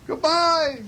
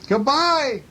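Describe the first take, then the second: First: Very high echoed goodbye; moon's echo. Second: High called-out goodbye; calling bear. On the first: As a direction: echo the farewell back, pitched way up. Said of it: "said Moon". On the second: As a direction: call farewell across to the moon. Bear calls goodbye to moon. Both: A narrator's reading.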